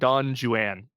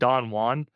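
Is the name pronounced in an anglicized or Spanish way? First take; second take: anglicized; Spanish. First: The name is pronounced with English-style sounds. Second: The name is pronounced with Spanish-style sounds. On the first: It jokes that British people mispronounce foreign words. "there's a reason why I'm saying Don Juan" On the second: It is the name as used in the original legend. "isn't it Don Juan? Yes, it is. If you're talking about the Spanish legend"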